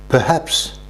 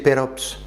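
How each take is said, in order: First: The middle h sound is pronounced clearly. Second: The middle h sound is dropped entirely. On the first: The speaker calls it right. "peut-être se dit en anglais perhaps" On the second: The speaker calls it wrong. "nous on le pensait perops"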